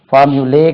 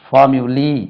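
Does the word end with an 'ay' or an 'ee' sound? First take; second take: ay; ee. First: The word ends with an 'ay' sound. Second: The word ends with an 'ee' sound. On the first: The speaker calls it wrong. "லே ஃபார்முலே கிடையாதுங்க" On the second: The speaker calls it right.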